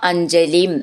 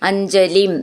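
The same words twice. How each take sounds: The two takes are said the same way.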